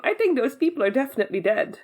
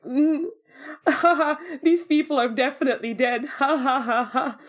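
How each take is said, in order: First: Said in the usual way. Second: Laughing it off as a joke; jokey line wrapped in mock laughs; joking. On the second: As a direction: recreate amused disbelief with ha-ha laughter. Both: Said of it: "We went from joking to this".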